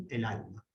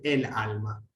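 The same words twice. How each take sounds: First: El alma softly run together as one word; joined article. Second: El alma split, el given its own stress before a break; separated article. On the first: Teacher gives correct version, el alma as a single word. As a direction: link el into alma, only alma accented, softer. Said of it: "Como si fuera una sola". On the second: Teacher shows what is never said, el alma broken apart. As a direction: detach el from alma, accenting both words. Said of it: "Nunca podemos decir el alma". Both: Shown as a demonstration.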